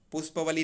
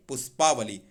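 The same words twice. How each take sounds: First: पुष्पवली with short A before व; wrong form पुष्पवली. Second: पुष्पावली with long AA before व; correct form पुष्पावली. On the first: Teacher rejects the wrong compound, mistaken form. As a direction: say पुष्पवली, short middle vowel. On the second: Teacher corrects पुष्पवली, long-vowel form. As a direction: stretch the पा in पुष्पावली. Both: Shown as a demonstration. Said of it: "पुष्पवली नहीं".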